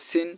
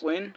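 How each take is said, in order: First: The s sound is light and thin. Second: The s sound is heavy and thick. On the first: The speaker calls it wrong. "অনেকে বলে সিন, তাহলে তো সিন দুই জের সিন মিলে যাবে" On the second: The speaker calls it right. "এগুলো মোটা হয়"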